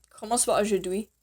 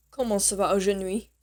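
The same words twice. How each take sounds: First: "aujourd'hui" with a clear d, "oh-zhoor-dwee"; corrected aujourd'hui. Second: "aujourd'hui" slipped into "oh-zhuh-nwee"; mispronounced aujourd'hui. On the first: Teacher fixing her slip in review, corrected aujourd'hui with clear d. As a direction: say "aujourd'hui" with d before "wee", rising at the end. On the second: Teacher reviewing "how are you today", mispronounced aujourd'hui with n for d. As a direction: say "aujourd'hui" with an n in place of the d. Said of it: "I mean, oh, sorry". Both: Shown as a demonstration.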